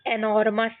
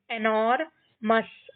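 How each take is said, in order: First: Said in the usual way. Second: एनोरमस split into एनोर, मस; syllable by syllable. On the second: Shown as a demonstration. Teacher shows how we will read, एनोरमस in two parts. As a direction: pause before the मस of एनोरमस. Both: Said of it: "इस तरीके से हम ये सारे words को पढ़ेंगे".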